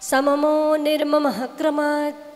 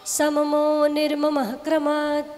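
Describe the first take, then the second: Both takes have the same delivery.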